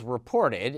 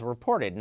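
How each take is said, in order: First: Said in the usual way. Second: "reported" set apart with deliberate stress; emphasis on reported. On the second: Shown as a demonstration. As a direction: lean on the word "reported". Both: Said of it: "and I emphasize reported".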